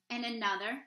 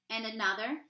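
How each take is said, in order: Both takes have the same delivery.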